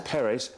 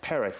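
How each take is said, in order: First: The name is said the South American way. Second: The name is said the Spanish way. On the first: "South America" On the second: "when it's Spanish"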